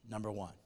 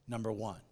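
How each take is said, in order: No difference in how they are said.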